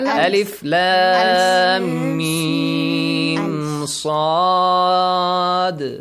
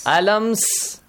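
First: Each letter is named separately by its full name. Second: The letters are run together as one word. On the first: The speaker calls it right. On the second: The speaker calls it wrong. "This is wrong"

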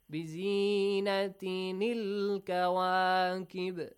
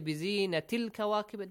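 First: The first word ends with an 'in' sound. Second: The first word ends in a plain 'i' vowel. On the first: The speaker calls it right. "that نون sound should be there" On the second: The speaker calls it wrong. "that's كسرة that's not تنوين"

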